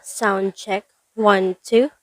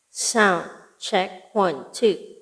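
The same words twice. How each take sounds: First: The voice sounds dry, without added echo. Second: The voice has added echo trailing after it. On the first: "this is my voice using N W one five zero zero" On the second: "So with echo"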